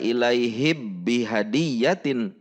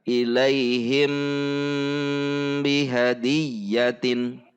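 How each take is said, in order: First: The m merges fully into a doubled b. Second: The m is kept with a nasal hum. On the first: The speaker calls it wrong. "tidak dibaca ilaihib bihadiyatin" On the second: The speaker calls it right. "dibaca ikhfa syafawi atau didengungkan"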